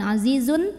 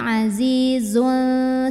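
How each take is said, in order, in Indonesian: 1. Bunyi n di akhir diucapkan dengan jelas. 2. Bunyi n di akhir tersembunyi dan disengaukan.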